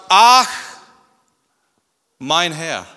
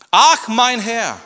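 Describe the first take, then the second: First: Dismayed groan. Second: High, loud, slow wail; drawn-out lament. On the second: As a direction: moan it in despair. (langsam klagendes Jammern) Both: Acted. Gideon's reaction, repeated.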